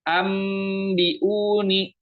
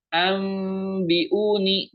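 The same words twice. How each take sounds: First: "ambiuni" very slowly with lips closed on the m; chanted "ambiuni", m fully sounded; m too clear. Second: "Ambiuni" with a long hummed m, lips loose; very slow chanted "Ambiuni", veiled m. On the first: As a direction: press the m of "ambiuni" shut. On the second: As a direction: hold the m of "Ambiuni" in the nose. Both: Shown as a demonstration.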